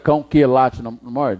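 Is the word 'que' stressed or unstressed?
stressed. The word que is strong and stressed. The speaker calls it wrong. "Precisei falar"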